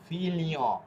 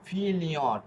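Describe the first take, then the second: The two takes are said the same way.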